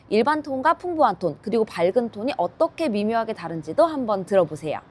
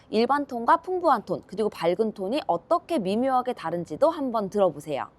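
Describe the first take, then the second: The two takes are said the same way.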